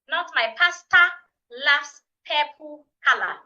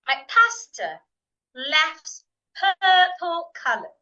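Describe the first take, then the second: First: It uses Ghanaian vowels with full endings. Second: It uses standard vowels with weak endings. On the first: The speaker calls it wrong. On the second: The speaker calls it right.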